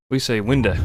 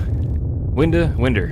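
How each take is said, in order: First: Texan winda for window. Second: Texan winda, winder for window. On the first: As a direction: say winda with the final vowel as a schwa, wɪndə. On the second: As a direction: stress Winda, then slide into winder. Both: Shown as a demonstration. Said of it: "How we pronounce window".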